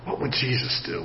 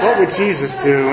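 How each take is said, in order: First: Hushed, half to himself; a private thought, almost swallowed; quiet inner thought. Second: Chuckling through the question; amused, self-mocking repeat; laughing. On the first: Retold or imitated. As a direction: muse it under your breath. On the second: Real, not acted. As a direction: let the laugh spill into it.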